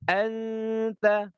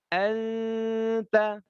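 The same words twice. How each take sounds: Both takes have the same delivery.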